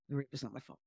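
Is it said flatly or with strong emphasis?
flatly. It is said flatly, without feeling.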